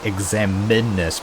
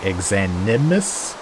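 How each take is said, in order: First: The m sound comes before the n sound. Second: The n sound comes before the m sound. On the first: The speaker calls it wrong. "I used to say Examinus" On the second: The speaker calls it right. "it's actually Exanimus. The N first"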